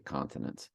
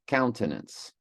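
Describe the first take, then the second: First: The first syllable sounds like 'con'. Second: The first syllable sounds like 'cown'. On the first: The speaker calls it wrong. "I say continence" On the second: The speaker calls it right. "It's more of a cown"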